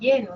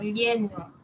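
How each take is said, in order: First: The ll is pronounced like a y. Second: The ll is a palatal lateral sound. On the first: "decimos lleno, o sea, lo cambiamos por la siguiente, que es la Y" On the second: "cuando decimos me siento lleno"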